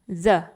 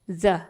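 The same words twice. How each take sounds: No difference in how they are said.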